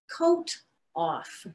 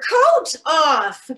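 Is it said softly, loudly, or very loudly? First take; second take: softly; very loudly. First: It is said at a softer volume. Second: It is said at the loudest volume.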